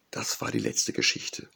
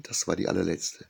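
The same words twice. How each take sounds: First: Hoarse. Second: Said in the usual way. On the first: A narrator's reading. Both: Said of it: "sagte Ria heiser".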